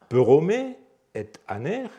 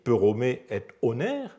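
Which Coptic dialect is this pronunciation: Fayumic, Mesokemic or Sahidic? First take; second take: Mesokemic; Sahidic. First: It has an r sound, 'aner' with a. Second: It has an r sound, 'oner' with o. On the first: "En mésochémique" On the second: "En saïdique"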